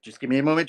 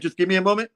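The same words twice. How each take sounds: First: Said in the usual way. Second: "just give me a moment" higher, more pleading; more urgent. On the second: Retold or imitated. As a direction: plead a second time, pressed. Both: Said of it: "It's like".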